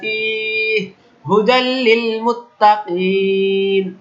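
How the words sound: There is a stop after the first word. "মানে আমি এখানে থামলাম"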